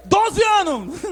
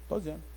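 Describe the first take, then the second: First: High, forceful exclamation; blurted answer. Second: Low, very soft mumbled answer; evasive mumble. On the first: Neemias finally answering the king, blurted loudly. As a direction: blurt it out loud at last. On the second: Neemias reluctant to tell the king, evasive mumble. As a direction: slip the answer out almost inaudibly. Neemias dodges the king's question. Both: Acted.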